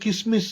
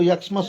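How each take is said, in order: First: The word begins with the syllable kis. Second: The word begins with the syllable yak. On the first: "वो भी नहीं बोलना है।" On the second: "ऐसा नहीं बोलना है।"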